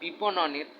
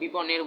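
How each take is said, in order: First: The word is said with four syllables. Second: The word is said with three syllables. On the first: The speaker calls it right. "হ্যাঁ বিপণনের" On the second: The speaker calls it wrong. "আমি বিপনের বলছি"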